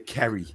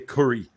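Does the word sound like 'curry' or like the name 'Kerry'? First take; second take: Kerry; curry. First: The word sounds like the name 'Kerry'. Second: The word sounds like 'curry'. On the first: This is how someone claimed the speaker says it. The speaker calls it wrong. "I don't say Kerry. Kerry's a girl's name" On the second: This is how the speaker really says it. The speaker calls it right. "I say curry"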